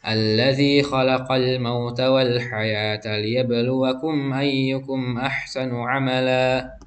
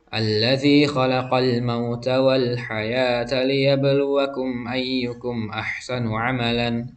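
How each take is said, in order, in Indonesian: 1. Kata terakhir berakhir dengan vokal panjang. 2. Kata terakhir berakhir dengan bunyi n. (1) "Suara tanwinnya itu dihilangkan. Panjangnya dua harokat" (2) "Jadi bukan ... Bukan seperti itu"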